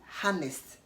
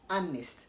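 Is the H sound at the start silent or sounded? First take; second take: sounded; silent. First: The word starts with an H sound. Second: The word starts with a vowel, no H. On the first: The speaker calls it wrong. "you don't say harnessed" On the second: The speaker calls it right. "H is silent"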